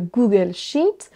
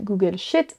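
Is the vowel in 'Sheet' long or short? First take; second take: long; short. First: The vowel in sheet is long. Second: The vowel in sheet is short. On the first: The speaker calls it right. "il faut normalement dire sheet" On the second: The speaker calls it wrong. "si vous raccourcissez, vous dites Google Sheet et ça marche pas"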